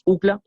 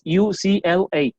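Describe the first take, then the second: First: The acronym is run together as one word. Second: The acronym is spelled out letter by letter. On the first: This is how it is said in Spanish. "en vez de letrarla le decimos U C L A" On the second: This is how it is said in English. "en inglés sí hay que deletrar esta sigla"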